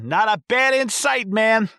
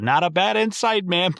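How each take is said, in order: First: Much higher, goofy, laid-back drawl of the line; dopey exterminator. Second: Higher, lightly imitated exterminator line; girlfriend quoting line. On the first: Retold or imitated. Exterminator reassuring the kids about bats, high and goofy. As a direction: toss it off like a clueless stoner. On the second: Girlfriend mouthing her favourite line, lightly voiced and higher. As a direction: echo the line as a fan would. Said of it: "literally mouthing it with the word".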